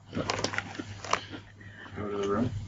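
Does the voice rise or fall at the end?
rise. It rises at the end like a question.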